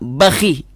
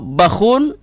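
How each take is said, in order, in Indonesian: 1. Berakhir pada kh ditambah i pendek. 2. Berakhir pada kh ditambah -un. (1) "dikasrahkan dengan ha harokat kasrah" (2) "didhammahkan dengan tanwin"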